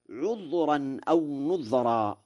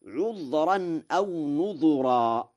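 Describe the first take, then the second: First: "نذرا" recited as nudhra; silent-vowel dhal. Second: Slow high recitation, "نذرا" as nudhura; damma on dhal. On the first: Teacher quotes the verse, "نذرا" as nudhra with sukun. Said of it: "ومن سكن الذال". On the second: Teacher shows Warsh's reading, "نذرا" as nudhura with damma. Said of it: "بضم الذال". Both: Shown as a demonstration.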